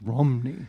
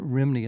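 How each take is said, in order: First: The first vowel sounds like 'uh'. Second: The first vowel sounds like 'ih'. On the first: The speaker calls it right. "the R H Y sound in, in Welsh is pronounced like ruh, like a U" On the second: The speaker calls it wrong. "So it's not Rimney"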